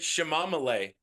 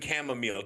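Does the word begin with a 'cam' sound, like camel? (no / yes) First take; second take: no; yes. First: The word does not begin like camel. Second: The word begins with a camel-like sound. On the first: It is a child's charming mispronunciation. The speaker calls it right. "my son pronounces it chamomile" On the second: It is the usual pronunciation. The speaker calls it wrong. "chamomile always makes me think of camels"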